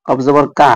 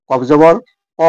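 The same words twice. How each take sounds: First: "কা" drawn out with a long open a; wrong long vowel demo. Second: "ক" short and heavy, no long a; correct short vowel demo. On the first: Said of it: "তাহলে তার পড়া ভুল". ("কা" উচ্চারণ, টানা আ-কার দিয়ে ভুল) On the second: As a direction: cut "ক" short, full and thick. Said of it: "পড়তে হবে কফ জবর ক". ("ক" ছোট করে, মোটা উচ্চারণে) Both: Shown as a demonstration.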